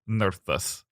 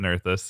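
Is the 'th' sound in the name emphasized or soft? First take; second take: emphasized; soft. First: The th sound is hit hard and emphasized. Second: The th sound is soft and unemphasized. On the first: The speaker calls it right. "you really have to hit that th" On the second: The speaker calls it wrong. "I thought I said Nerthus"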